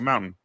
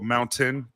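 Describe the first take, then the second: First: The middle T sound is dropped. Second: The middle T sound is clearly pronounced. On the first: This is how the speaker personally says it. "I don't pronounce T's. ... but I go" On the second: This is how most people say it. "a lot of people go"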